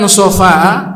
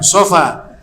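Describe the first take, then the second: First: The word ends with a glottal stop. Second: The word ends on an open vowel. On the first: It means purity or cleanliness. The speaker calls it wrong. "Kalau kau mengatakan sofa'a, salah" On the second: It names the hill of Safa. The speaker calls it right. "tanpa ada hamzah di belakang"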